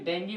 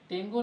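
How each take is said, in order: First: The word ends with an 'ee' vowel. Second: The word ends with an 'oo' vowel. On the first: The speaker calls it right. "बल्कि डेंगी बोलते हैं, शुद्ध डेंगी होता है" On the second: The speaker calls it wrong. "डेंगू नहीं"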